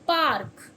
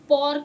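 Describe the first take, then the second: First: The vowel is an open 'ah' sound. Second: The vowel is a rounded 'aw' sound. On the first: The speaker calls it right. "तो क्या पढ़ेंगे हम इसे" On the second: The speaker calls it wrong. "ऑ पढ़ते हैं, तो हम इसे पॉर्क नहीं पढ़ेंगे"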